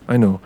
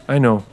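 Both takes have the same delivery.

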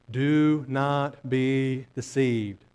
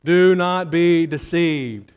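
First: Very slow, soft, heavy on "Do"; slow and grave. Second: Very slow, each word weighted, "Do" stressed; slow firm warning. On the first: Preacher warning congregation, slow grave stress. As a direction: lean into "Do not be deceived" slowly. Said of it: "There are those words again". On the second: Preacher repeating warning to congregation, slow and firm. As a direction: press "Do not be deceived" firmly. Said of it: "Don't be fooled". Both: Shown as a demonstration.

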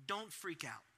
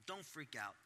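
First: Said in the usual way. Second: Don't freak out, said again much softer; quiet, firm echo; softer repeat. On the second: Shown as a demonstration. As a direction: drop the voice and let it land.

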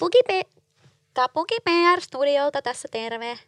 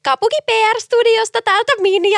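First: Softer, lightly nasal PR greeting; a hint of a nasal PR caller. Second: Lightly put-on PR receptionist voice, higher; a hint of a perky nasal caller; nasal PR girl voice. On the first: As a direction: speak a bit through the nose. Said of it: "Vähän nenästä, nenästä, nenästä". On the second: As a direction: prank caller posing as PR girl. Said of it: "Pitäisikö mun enemmän puhua tälleen nenästä?".

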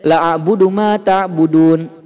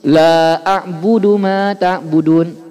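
First: La a'budu ma ta'budun with the la clipped short, slow. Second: La a'budu ma ta'budun with the la held long, slow; correct long la. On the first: Teacher demonstrating the wrong short la. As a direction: cut the la short. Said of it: "kalau kita bacanya pendek". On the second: Teacher giving the correct long la recitation. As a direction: draw out the la properly. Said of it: "yang seharusnya". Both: Shown as a demonstration.

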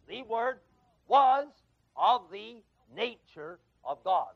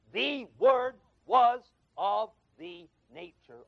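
First: Deliberate emphasis, slow and weighty; stressed slow reading. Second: The Word WAS of the nature, slowed with weight on WAS; slow, deliberate emphasis on WAS; stressed slow reading. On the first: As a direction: hit "was" hard, then draw out the rest. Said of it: "the emphasis is on nature". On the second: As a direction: lean on WAS and stretch the phrase out. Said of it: "That's what he says". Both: Shown as a demonstration.

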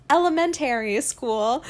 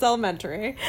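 First: ELEMENTARY with an AIR sound, "elemen-TARRY"; mocking "elemen-TAIR-ee", higher and louder; imitated regional pronunciation. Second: ELEMENTARY ending "-tuh-ree", no AIR sound; "elementary" as "elemen-tree"; correcting pronunciation. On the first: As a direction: stretch "elementary" to end in "-tairy". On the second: Shown as a demonstration. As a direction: say "elementary" with a reduced -tary. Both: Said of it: "but it's elementary".

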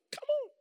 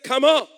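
First: Much higher call; high come on. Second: Much louder come on; loud repeat. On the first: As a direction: lift it up high. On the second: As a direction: shout it at them. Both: Real, not acted. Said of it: "I said".

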